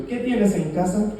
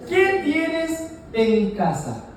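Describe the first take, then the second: First: Said in the usual way. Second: Very slow, spaced-out "¿Qué tienes en casa?"; deliberate, word-by-word "¿Qué tienes en casa?"; slow deliberate question. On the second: Retold or imitated. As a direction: draw out "qué", "tienes" and "en casa", pausing between. Prophet's question, declaimed for congregation.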